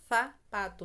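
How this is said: The first sound is a th sound. "na Espanha é interdental, a língua ela vai para fora"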